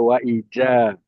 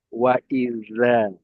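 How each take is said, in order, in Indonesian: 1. Konsonan tengah berbunyi j. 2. Konsonan tengah berbunyi th lembut. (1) "jangan ada wa ija" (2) "adanya wa iza"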